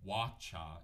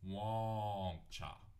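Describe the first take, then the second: First: The first vowel is plain, with no nasal sound. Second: The first vowel is nasal. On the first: The speaker calls it wrong. "so it's not wa cha" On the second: The speaker calls it right. "this one also has the tail under the A, ... it's wonk cha"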